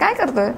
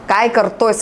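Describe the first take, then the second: First: The phrase is said loosely and naturally. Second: Every sound is pronounced crisply and distinctly. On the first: The speaker calls it right. "तितका सहजपणा तुमच्यात असला पाहिजे" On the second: The speaker calls it wrong. "असं म्हणायची गरज नाही"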